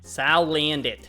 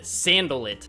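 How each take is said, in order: First: The name begins with 'Sal' and ends 'andit'. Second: The name begins with 'Sand' and ends 'alit'. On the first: The speaker calls it right. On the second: The speaker calls it wrong.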